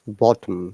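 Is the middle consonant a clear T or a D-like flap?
clear T. The middle consonant is a clear T sound. "But for us, it remains same"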